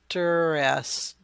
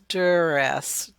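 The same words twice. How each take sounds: The two takes are said the same way.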